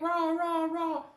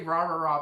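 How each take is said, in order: First: It is said energetically, like a cheerleader. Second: It is said flatly, without much energy. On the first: The speaker calls it right. "something like cheerleader-ish" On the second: The speaker calls it wrong. "I always say rah, rah, rah"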